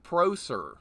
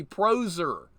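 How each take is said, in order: First: Proser said with an S sound; tentative pronunciation. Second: Proser said with a Z sound; settled pronunciation. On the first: Asking a raider how to say the name, Proser with an S. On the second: Streamer naming the raider once corrected, Proser with a Z. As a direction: say Proser with a buzzing Z in the middle. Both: Shown as a demonstration. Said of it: "how should I pronounce it".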